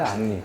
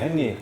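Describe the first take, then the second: First: The name is said the French way, Ahn-ree. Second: The name is said the English way, Hen-ree. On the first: "그건 프렌치 네임이라고 해서" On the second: "헨리라고 하잖아요"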